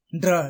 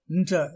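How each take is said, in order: First: "ன்றா" as n-d-ra, rolled r; wrong pronunciation. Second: "ன்ற" blended as ndr in Indra-like one sound; correct pronunciation. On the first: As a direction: say "ன்றா" with hard d, then r. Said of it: "என்று சொல்வது தவறு". (தவறான உச்சரிப்பு "ன்றா", ண்ட்ரா என்று) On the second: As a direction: say "ன்ற" close to nja, r not rolled. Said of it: "என்று சொல்வது சரி". (சரியான உச்சரிப்பு "ன்ற", ஒரே ஒலி) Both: Shown as a demonstration.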